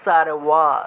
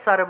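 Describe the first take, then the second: First: It is said with a 'w' sound, lips apart. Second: It is said with a 'b' sound, lips closed. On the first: This is the Sanskrit pronunciation. "সংস্কৃতে বললে সারওয়া" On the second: This is the Bengali pronunciation. "বাংলায় বললে সর্ব"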